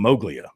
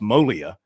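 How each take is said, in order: First: The g sound in the middle is pronounced. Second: The g sound in the middle is silent. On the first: This is the local pronunciation in the South. "down here, it's become Moglia. So we're pronouncing the G" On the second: This is the original pronunciation from his homeland. "It's actually pronounced Molia. ... Up there, it is silent"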